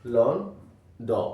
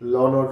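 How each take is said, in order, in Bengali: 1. শেষ ধ্বনির আগে একটু থামা হয়। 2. শব্দটি কোনো থামা ছাড়াই একটানা বলা হয়।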